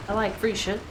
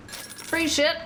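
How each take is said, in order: First: Said in the usual way. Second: Excited. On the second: Real, not acted. Streamer grabs free loot again.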